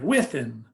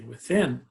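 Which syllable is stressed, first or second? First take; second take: first; second. First: The stress is on the first syllable. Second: The stress is on the second syllable. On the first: The speaker calls it wrong. "we don't say like within" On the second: The speaker calls it right. "we say within"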